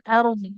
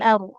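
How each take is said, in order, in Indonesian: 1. Kata itu berakhir dengan bunyi konsonan akhir yang jelas terdengar. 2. Kata itu berakhir tanpa bunyi konsonan akhir. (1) "Botnya dibaca" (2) "Jangan aru"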